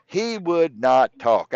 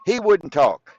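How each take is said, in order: First: "not" held and stressed, every word slow. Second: Said in the usual way. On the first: Shown as a demonstration. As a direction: spell out "He would not talk" word by word, leaning on "not".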